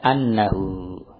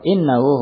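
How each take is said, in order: First: The word begins with an a vowel. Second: The word begins with an i vowel. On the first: It is read as a single noun. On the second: It is read as a full clause.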